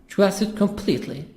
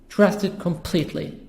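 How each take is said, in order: The two takes are said the same way.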